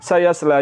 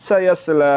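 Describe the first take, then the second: No difference in how they are said.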